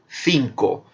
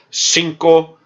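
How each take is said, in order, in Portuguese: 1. O primeiro som é um th, com a língua entre os dentes. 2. O primeiro som é um s simples. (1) "com os dentes, a língua entre os dentes. É o interdental, como na Espanha" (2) "como um som de S"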